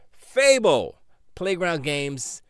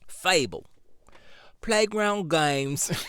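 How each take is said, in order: First: It is read in a plain, ordinary voice. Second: It is read in a British accent.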